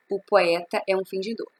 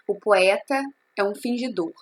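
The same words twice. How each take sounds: First: Said in the usual way. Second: O POETA, a pause, then É UM FINGIDOR; measured reading with a break after POETA; divided reading. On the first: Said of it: "nós estamos falando das sílabas gramaticais". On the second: Shown as a demonstration. Teacher shows students the line's literary syllables, divided reading with a pause after POETA. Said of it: "nós estamos falando das sílabas literárias".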